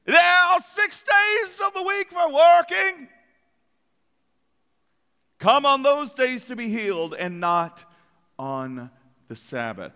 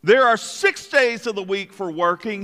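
First: Put-on high, pompous British accent laying down the rule; a prim British synagogue leader; mock British accent. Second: Said in the usual way. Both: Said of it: "I'm sure he spoke in a British accent".

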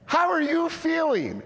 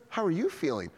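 First: Very high, loud, incredulous check-in; over-excited question. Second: Said in the usual way. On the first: Retold or imitated. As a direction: ask as if she had risen from the dead. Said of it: "You're always so excited".

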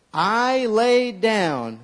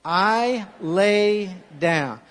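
First: Slow, drawn-out memory verse; deliberate call-and-repeat line; slow recitation. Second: Slow drawn-out repeat; slow recitation. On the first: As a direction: lead the congregation word by word. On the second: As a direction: say it back slowly with them. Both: Shown as a demonstration. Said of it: "Say that with me".

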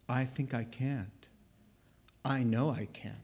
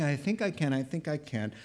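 First: Low, soft, halting resignation; defeated train. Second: Said in the usual way. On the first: Acted. The train admits it can't, defeated. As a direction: let it sag, deliberate and defeated. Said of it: "the train should be saying". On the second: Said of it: "instead of saying".

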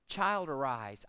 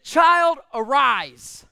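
First: Put-on soft, low, calm "Child, arise"; quiet command. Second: Put-on CHILD called out loud and high, then arise; loud command. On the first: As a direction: speak it gently with full authority. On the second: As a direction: raise the dead with a shout. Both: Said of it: "I don't think he had to raise his voice".

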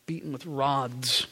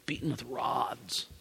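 First: Quiet repeat. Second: Full whisper, much softer, lingering on it; a hushed echo of the horror; whispered repeat. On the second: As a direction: let the words fade into a whisper. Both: Acted. Repeating the torture for weight.

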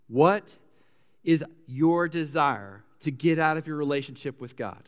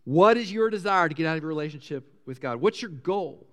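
First: Deliberate questioning. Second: Brisker repeated question. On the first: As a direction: pause after "What", then measured. Poses question, then repeats it. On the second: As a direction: run "What is your desire" together without pausing. Same question repeated more quickly. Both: Shown as a demonstration.

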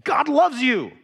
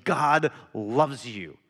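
First: Louder, higher, pressing on loves; emphatic repeat to a dismissive friend; insistent. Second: Slow, gentle God loves you. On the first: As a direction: push back, make him listen. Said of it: "I'm like, No, listen". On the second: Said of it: "and I'm saying". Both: Retold or imitated.

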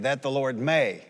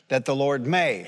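First: May pressed, falling tune; stress on may. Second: May leaned on with a falling tune; emphasize may; stress on may. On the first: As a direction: put the weight on may. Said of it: "say it out loud and emphasize the word may". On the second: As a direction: lean into may. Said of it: "emphasize the word may". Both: Shown as a demonstration.

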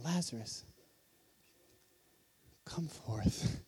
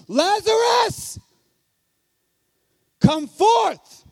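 First: Soft, low and far-off, with no force; timid quiet call. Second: Slow, very high and very loud full-force cry; thunderous shout. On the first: The weak way many imagine Jesus calling into the tomb, hushed. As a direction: call him out meekly, almost a murmur. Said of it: "many of us look at this and see Jesus saying". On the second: Jesus calls the dead man from the tomb, booming shout. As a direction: roar it like thunder, totally confident. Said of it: "in an extremely loud voice". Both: Shown as a demonstration.

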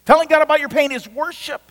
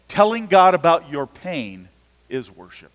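First: "Telling God about your pain is worship." lifted much higher, "God" rising; the higher, insistent second take of "Telling God about your pain is worship."; emphatic repeat. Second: Said in the usual way. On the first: Shown as a demonstration. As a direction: repeat it higher and hammer it home, with "God" climbing.

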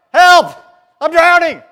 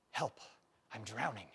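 First: High, very loud shout for help; desperate yell. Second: Soft, low, thrown away; quiet. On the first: Preacher acting out a drowning man, yelling. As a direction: scream it like you're going under. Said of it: "you cry out". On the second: Preacher quoting a comedian's line, said softly. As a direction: say the cry for help under your breath. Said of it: "The comedian said". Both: Shown as a demonstration.

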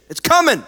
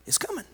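First: High, loud, ringing warning. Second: Soft, high, hushed warning. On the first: Real, not acted. Preacher warning the congregation persecution is coming, loud. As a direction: call it out to the whole room. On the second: Acted. Preacher softly voicing Jesus that persecution is coming, hushed. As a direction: drop it almost to a breath. Soft repeat of earlier shout.

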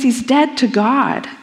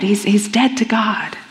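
First: Said in the usual way. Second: Hushed whisper. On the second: Acted. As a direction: whisper it, heavy and final. Preacher repeats the verdict.

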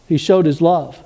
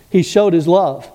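First: "showed" hit hardest, then falling; stress on SHOWED. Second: "He" hit hardest, then falling; stress on HE. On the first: Preacher to congregation, leaning on "showed". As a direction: lean on "showed" in "He showed his love". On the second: Preacher to congregation, leaning on "He". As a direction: lean on "He showed his love". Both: Shown as a demonstration.

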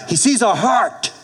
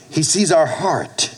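First: Sees lifted high and hit hard; stress on sees. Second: Slow, leaning on our; slow stress on our. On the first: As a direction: punch the word sees. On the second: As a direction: dwell on the word our. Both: Shown as a demonstration.

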